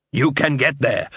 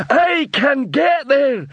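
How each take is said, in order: First: Said in the usual way. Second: High, slow, proud troll repeating. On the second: A narrator's reading. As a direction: echo the words like a slow troll. Troll repeats dwarf's words.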